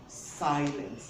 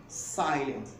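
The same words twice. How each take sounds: No difference in how they are said.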